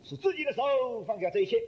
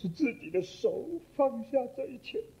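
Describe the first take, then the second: First: It is read in a positive, upbeat tone. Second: It is read in a sad, mournful tone. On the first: Giving everything up is a willing choice. The speaker calls it right. "我这样读法。同样的字，但是不同的读法。" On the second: Giving everything up is a painful loss. The speaker calls it wrong. "他这样读法。"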